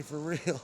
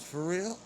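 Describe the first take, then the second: First: "real" falling, as a statement; retold answer closing downward on "real"; resigned confirmation. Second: "real" swung sharply up as a question; retold question rising high on "real"; imitated disbelief. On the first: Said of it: "Yeah, unfortunately". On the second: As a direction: ask "real" with a rising, incredulous lift. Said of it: "he asked me ten times".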